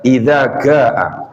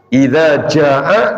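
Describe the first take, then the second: First: The second word starts with a hard g sound. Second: The second word starts with a j sound.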